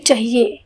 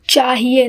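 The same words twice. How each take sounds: First: The first vowel is short and quick. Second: The first vowel is a long, open aa. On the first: The speaker calls it wrong. "न कि" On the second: The speaker calls it right. "आपका देखिए उच्चारण कैसा है"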